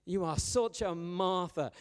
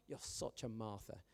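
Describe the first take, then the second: First: Slow, louder, punching such in You are such a Martha; emphatic mock accusation. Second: You're such a Martha tossed off softer; soft aside. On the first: A churchgoer labelling a friend, slow and pointed. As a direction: lean hard on such as a mock insult. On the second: Retold or imitated. A churchgoer muttering a label at a friend, softer. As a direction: throw the line away quietly. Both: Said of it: "anyone come up to you in church and go".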